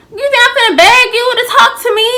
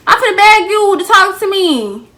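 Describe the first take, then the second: First: Fast, high, loud disbelief; incredulous. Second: Sarcastic mock voice, high. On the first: Retold or imitated. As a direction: scoff at the idea, fast. Incredulous retort to friend. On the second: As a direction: mimic her sarcastically. Mocking the friend's expectation.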